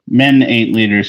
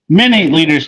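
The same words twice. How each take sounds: First: It is read flatly with little energy. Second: It is read lively with more energy. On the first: The speaker calls it wrong. "you're reading that terrible" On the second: The speaker calls it right. "Read that with more enthusiasm"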